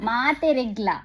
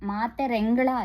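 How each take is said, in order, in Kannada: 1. ಈ ಪದವನ್ನು maateregla ಎಂದು ಹೇಳುತ್ತಾರೆ. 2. ಈ ಪದವನ್ನು maaterengala ಎಂದು ಹೇಳುತ್ತಾರೆ. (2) "ಮಾತೆರೆಂಗಳ ಅಲ್ಲ"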